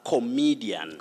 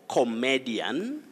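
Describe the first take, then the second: First: The word is said the standard dictionary way. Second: The word is said the commonly heard local way. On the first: The speaker calls it right. "that word is actually pronounced as comedian" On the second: The speaker calls it wrong. "we hear a lot of comedian"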